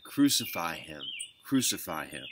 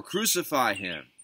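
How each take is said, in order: First: Understated crowd cry, not raised; contained, falling exclamation; restrained crying out. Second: Higher, slow, insistent crowd cry; narrator's raised-voice crowd shout; mild shout. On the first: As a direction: read the crowd's demand firmly without shouting. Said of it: "they cried out again". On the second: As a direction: call it out slowly with raised pitch. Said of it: "they shouted all the more". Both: A narrator's reading.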